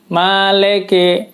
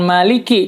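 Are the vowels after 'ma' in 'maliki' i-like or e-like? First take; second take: e-like; i-like. First: The last two vowels sound like e. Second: The last two vowels sound like clear i. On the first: The speaker calls it wrong. "Jadi leke, bukan liki" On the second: The speaker calls it right. "menggunakan harokat kasrah"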